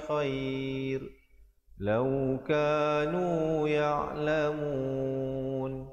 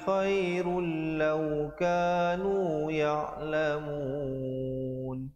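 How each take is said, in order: First: There is a stop after khairun before lau. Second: Khairun runs straight into lau without stopping. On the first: "saya akan baca dengan wajah kita waqaf dulu pada khair, kemudian ibtidak pada lau" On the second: "dengarkan saya baca dengan wasal"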